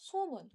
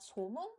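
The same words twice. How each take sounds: First: The word starts on a high pitch. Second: The word starts on a low pitch. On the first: The speaker calls it right. "but 소문 and 소설" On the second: The speaker calls it wrong. "Not 소문"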